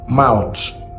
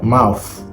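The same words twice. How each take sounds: First: The final sound is said like t. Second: The final sound is said like f. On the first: "but we pronounce it as t" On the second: "Ghana pronounces it as mouth"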